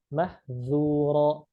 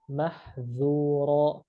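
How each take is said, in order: No difference in how they are said.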